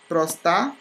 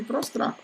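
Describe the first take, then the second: First: "Prostar" with no second R after the T; mispronounced prostrar. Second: "prostrar" with R after the T; correct prostrar. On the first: Teacher showing a common error, Prostar missing an R. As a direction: say pros-tar, dropping an R. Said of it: "as pessoas pronunciam errado". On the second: Teacher giving the right form, prostrar with "trar". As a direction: say pros-trar, both clusters sounded. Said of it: "Em vez de". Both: Shown as a demonstration.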